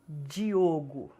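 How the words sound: The D is said the non-Northeastern Brazilian way. "Nordestinos não pronunciam Diogo"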